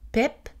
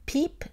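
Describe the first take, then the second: First: The vowel is a relaxed, more open i. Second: The vowel is a tense, closed i.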